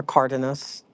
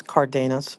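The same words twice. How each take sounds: First: "Cardenas" as CAR-de-nas; alternative Cardenas pronunciation. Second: "Cardenas" as car-DAY-nas; usual Cardenas pronunciation. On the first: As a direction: stress the first syllable of "Cardenas", short middle. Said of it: "I've heard them say". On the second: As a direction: stress the middle of "Cardenas", like DAY. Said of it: "I always say Cardenas". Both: Shown as a demonstration.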